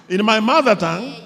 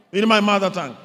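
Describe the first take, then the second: No difference in how they are said.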